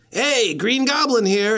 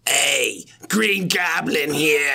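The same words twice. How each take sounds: First: Said in the usual way. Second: Slow, strained Green Goblin cry; raised, drawn-out goblin impression; Willem Dafoe. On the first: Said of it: "No, do the voice". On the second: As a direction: put on a hammed-up villain voice. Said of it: "I do a Willem Dafoe voice".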